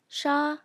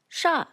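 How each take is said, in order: First: The pitch stays level throughout. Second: The pitch falls downward. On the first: "maintains its pitch from start to finish" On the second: "falls like this"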